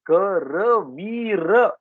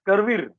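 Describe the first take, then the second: First: The short vowels after r and v are pronounced. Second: The short vowels after r and v are dropped. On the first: The speaker calls it right. "Sanskrit pronunciation of this word, this word will be Karavira" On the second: The speaker calls it wrong. "Not Karvir"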